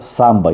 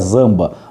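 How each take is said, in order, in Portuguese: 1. A palavra começa com um som de s sibilante. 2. A palavra começa com um som de z vibrado. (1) "mas se pronuncia samba" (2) "se a gente fosse ler em português, seria zamba"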